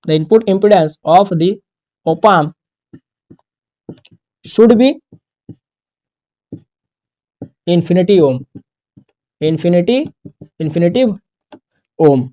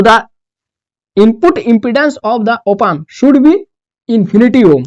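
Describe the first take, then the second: First: Phrase by phrase with long gaps; dictation. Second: Slow, even run through the rule; stating the rule. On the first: Teacher dictates the rule for students to copy, chunk by chunk. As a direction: dictate each chunk and wait for the pens. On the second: Teacher states the next rule to the class, slowly. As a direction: say the rule once, slowly and evenly. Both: Shown as a demonstration. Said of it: "वही resistance ही एक तरीके का है".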